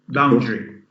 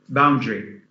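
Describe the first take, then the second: No difference in how they are said.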